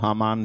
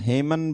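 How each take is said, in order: First: The first vowel of the name is a long 'aa'. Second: The first vowel of the name sounds like 'e'. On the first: This is the form used in Hindi. "हामान Hindi में हम बोल लेते हैं" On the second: Some people call him by this form. "हेमन भी बोलते हैं उसको"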